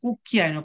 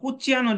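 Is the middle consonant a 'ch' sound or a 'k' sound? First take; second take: k; ch. First: The middle consonant is a hard 'k' sound. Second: The middle consonant is a soft 'ch' sound. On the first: The speaker calls it right. "কয়ের মতো উচ্চারণ হবে" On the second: The speaker calls it wrong. "যে বলছে ভুল বলছে"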